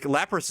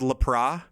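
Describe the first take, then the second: First: The word ends with a final s sound. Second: The word ends without a final s sound. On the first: The speaker calls it wrong. "Lapras is not the correct way to say it" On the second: The speaker calls it right. "it's actually pronounced Lapra"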